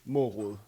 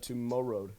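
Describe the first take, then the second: First: The name is pronounced the Danish way. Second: The name is pronounced the English way. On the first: The speaker calls it right. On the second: The speaker calls it wrong.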